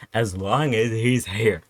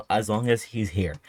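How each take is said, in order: First: "As long as he's here" slowed, each word leaned on; slow emphatic repeat. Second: Said in the usual way. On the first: Shown as a demonstration.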